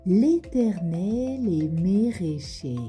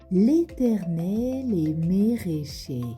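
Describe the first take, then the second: First: Every vowel is replaced by an é sound. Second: The same.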